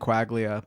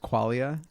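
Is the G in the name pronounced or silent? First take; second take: pronounced; silent. First: The G in the name is pronounced. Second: The G in the name is silent. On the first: This is the pronunciation used growing up. "I grew up saying quaglia" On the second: This is the Italian pronunciation. "I say it with a silent G. That that's how it would be pronounced in Italian"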